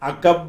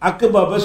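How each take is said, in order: First: The two p sounds merge into one doubled p. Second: The two p sounds are pronounced separately. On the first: The speaker calls it right. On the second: The speaker calls it wrong.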